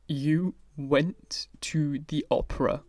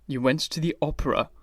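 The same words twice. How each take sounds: First: Slow, whispered, pained. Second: Said in the usual way. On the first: A narrator's reading. Basil to Dorian, slow pained whisper. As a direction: breathe it out slowly, wounded. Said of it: "speaking very slowly and with a strange touch of pain". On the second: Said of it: "speaking very slowly".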